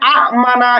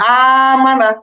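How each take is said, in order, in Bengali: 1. প্রথম স্বরধ্বনিটি হ্রস্ব, ছোট করে কেটে পড়া হয়। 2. প্রথম স্বরধ্বনিটি দীর্ঘ করে টেনে পড়া হয়। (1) "এরকম না করে" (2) "টেনে পড়তে পারবো"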